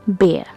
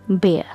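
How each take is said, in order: The two takes are said the same way.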